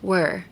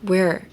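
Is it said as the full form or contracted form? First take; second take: contracted; contracted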